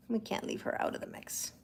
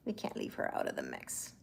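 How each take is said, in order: First: Playful whisper. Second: Deep playful voice. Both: Shown as a demonstration. Repeats line in new voices.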